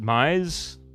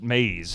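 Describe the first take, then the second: First: The vowel sounds like 'eye'. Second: The vowel sounds like 'ay'. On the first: This is how the listeners say it. "so you guys pronounce it Mize?" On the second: This is how it is said locally. "we call it maze here"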